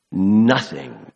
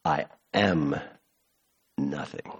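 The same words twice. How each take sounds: First: "Nothing" struck firmly with a falling tune; emphatic nothing. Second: "nothing" dropped low and much softer, almost gone; hushed and low. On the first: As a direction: punch "Nothing" hard, then let it fall. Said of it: "emphatic again". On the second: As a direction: let "I am nothing" sink into a hush. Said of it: "give me chills". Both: Shown as a demonstration.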